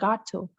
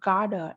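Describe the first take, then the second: First: The two words are said separately and fully. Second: The two words blend into one reduced form. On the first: "instead of saying got to" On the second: "Natives usually say the word gotta"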